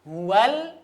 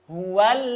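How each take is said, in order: Both takes have the same delivery.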